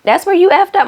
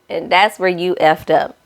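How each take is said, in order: First: High and loud on effed up; exasperated higher retake; emphatic repeat. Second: Said in the usual way. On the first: Real, not acted. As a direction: hammer the line home in disbelief. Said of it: "repeated with emphasis". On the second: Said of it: "repeats it, second take marked".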